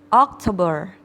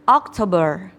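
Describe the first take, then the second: No difference in how they are said.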